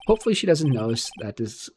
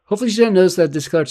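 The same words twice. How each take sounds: First: Said in the usual way. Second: Louder and quicker, higher pitch; loud fast character read. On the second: Acted. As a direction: rattle it off loudly in a higher character voice.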